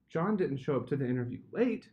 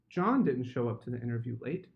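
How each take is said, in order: First: The stress falls on the word late. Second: The stress falls on the word John.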